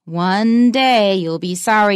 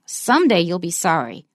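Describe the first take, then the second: First: Slow, weighty stress on "One day"; slow, emphatic threat with "One day" hit hard; strong threat. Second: Said in the usual way. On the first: Shown as a demonstration. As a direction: make it sound like a warning. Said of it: "You can hear the difference". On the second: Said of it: "it is not as strong".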